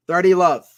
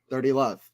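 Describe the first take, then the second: First: Called out loud like a chair umpire; loud score call. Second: Said in the usual way. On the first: Acted. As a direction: announce the score to the crowd. Umpire-style score call, repeated.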